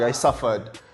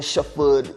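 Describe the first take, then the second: First: Suffered starts with a plain s sound. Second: Suffered starts with a sh sound. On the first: "Instead of like" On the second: "there is a lot of sh sound instead of s"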